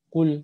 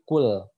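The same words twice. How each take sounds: First: The final sound is cut short. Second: The final sound is held long. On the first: The speaker calls it wrong. "bukan kul kul" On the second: The speaker calls it right. "tapi kul, harus ditarik"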